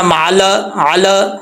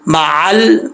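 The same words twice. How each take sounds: First: मअल said as "ma-a-la", extra vowel after l; wrong qalqala. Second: मअल closed on a steady l; correct lam. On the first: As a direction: bounce off the "ल" in मअल, अल. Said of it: "ऐसे नहीं पढ़ना". (मअल, अल में लाम पर गलत कलकला) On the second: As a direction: end मअल on "ल" with no vowel after it. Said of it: "ऐसा नहीं". (मअल में लाम साकिन, बिना कलकला) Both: Shown as a demonstration.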